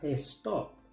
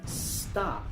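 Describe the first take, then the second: First: It begins with an added 'es' sound. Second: It begins directly with an S sound. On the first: The speaker calls it wrong. "no se pronuncia es" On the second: The speaker calls it right. "empieza con el sonido de S"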